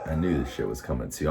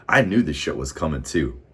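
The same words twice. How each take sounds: First: Quick aside. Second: Emphatic. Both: Real, not acted.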